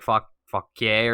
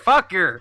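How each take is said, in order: First: The name is pronounced the French way. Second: The name is pronounced the local Virginian way. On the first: "it's a French word, so it, you know it should be like" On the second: "Virginians are gonna be like"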